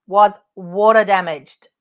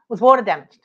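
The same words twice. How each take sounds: First: "Was water damaged" slowed down, each word pressed; slow emphatic repeat. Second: Said in the usual way. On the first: Shown as a demonstration.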